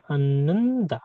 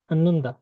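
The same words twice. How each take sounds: First: Drawn-out 'Ananda', long held n in the middle; slow model. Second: Said in the usual way. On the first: Shown as a demonstration. Teacher showing that h is not pronounced, slow model of 'Ananda'. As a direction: stretch 'Ananda' out for learners.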